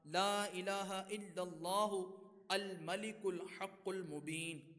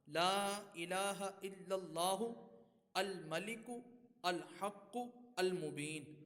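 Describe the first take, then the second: First: The words are run together without breaks. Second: Each word is read separately with breaks.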